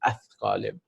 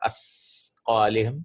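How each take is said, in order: First: The consonant is a 'th' sound, tongue out. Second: The consonant is a plain 's' sound. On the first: The speaker calls it right. "It's athqalihim" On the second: The speaker calls it wrong. "many of them say it asqalihim"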